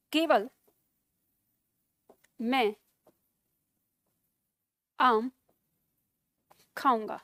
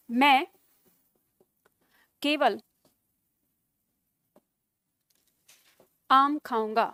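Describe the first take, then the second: First: केवल मैं said apart from आम खाऊंगा, weight on मैं; slow, paused, leaning on मैं; focus on मैं. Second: केवल then a long pause before आम; slow, with pauses that push weight onto आम; focus on आम. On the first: Teacher moving केवल to put the focus on मैं. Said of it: "इस केवल को बदल दें". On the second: Teacher showing केवल puts the focus on आम. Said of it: "जैसे देखो". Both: Shown as a demonstration.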